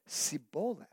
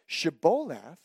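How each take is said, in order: First: The word begins with an 's' sound. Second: The word begins with a 'sh' sound. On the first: The speaker belongs to the group that cannot make the sound. The speaker calls it wrong. "they said Siboleth" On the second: The speaker belongs to the group that can make the sound. The speaker calls it right. "the men of Ephraim could not pronounce the sound of SH"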